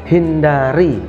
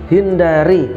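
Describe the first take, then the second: The two takes are said the same way.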